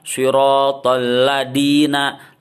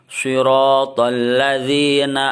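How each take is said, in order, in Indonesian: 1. Kata ini memiliki bunyi d. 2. Kata ini memiliki bunyi z. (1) "suka ada yang salah" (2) "bukan da tapi za"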